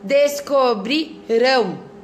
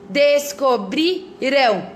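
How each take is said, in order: First: The stress falls on the last syllable. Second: The stress falls on the second-to-last syllable. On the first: The action will happen in the future. "E depois" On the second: The action happened in the past. "no passado"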